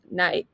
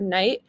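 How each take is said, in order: First: "night" with a flattened Texas vowel. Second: Said in the usual way. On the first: Shown as a demonstration. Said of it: "Flattened vowels are a huge factor". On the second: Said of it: "the word night pronounced as night".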